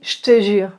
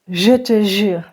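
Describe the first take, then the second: First: It is said quickly, as in fast speech. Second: It is said at a slower, careful pace.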